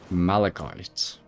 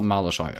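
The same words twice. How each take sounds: First: The last syllable sounds like 'kite'. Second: The last syllable sounds like 'shite'. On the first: The speaker calls it right. "calling something shite when it's uh, kite" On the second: The speaker calls it wrong. "it's not Malachite"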